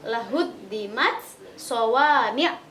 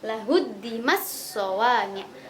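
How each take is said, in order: First: The t is pronounced clearly before the next word. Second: The t merges into the following consonant. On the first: "Kalau idhar" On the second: "kalau idgham"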